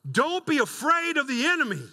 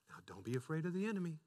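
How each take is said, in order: First: It is said forcefully, with strong emphasis. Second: It is said gently, without force.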